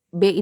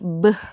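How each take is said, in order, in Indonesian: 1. Konsonan diikuti vokal e. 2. Konsonan diucapkan sendiri tanpa vokal. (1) "nama hurufnya itu kan terdiri dari huruf B dan E" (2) "bunyinya itu E-nya dihapus"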